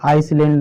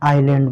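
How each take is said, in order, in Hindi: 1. इस शब्द को s की आवाज़ के साथ बोला जाता है। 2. इस शब्द को s की आवाज़ के बिना बोला जाता है। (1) "इसको आइसलैंड नहीं" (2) "इसको आइलैंड बोलते हैं"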